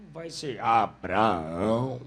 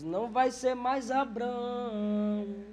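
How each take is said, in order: First: Low, slow, booming "Abraão" with every syllable held; "Abraão" dropped low and drawn out; God giving the new name. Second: Put-on high, slow and drawn out "Abrão", the old name; "Abrão" stretched slowly on a raised voice; God renaming Abraham. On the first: Retold or imitated. Preacher voicing God, low and slow on "Abraão". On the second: Preacher voicing God, high and slow on "Abrão". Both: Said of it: "Deus diz".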